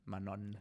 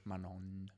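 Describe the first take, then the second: First: It is said the Italian way, as written. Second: It is said the Italian way, as written.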